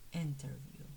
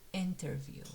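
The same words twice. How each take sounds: The two takes are said the same way.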